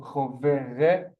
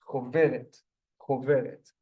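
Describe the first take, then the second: First: "choveret" built up slowly syllable by syllable, cho-ve-ret, with a guttural ch; sounded out slowly. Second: Said in the usual way. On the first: Shown as a demonstration. Teacher blending "choveret" for the class, slow and drawn out. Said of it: "We have the resh with the three dots". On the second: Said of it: "so choveret".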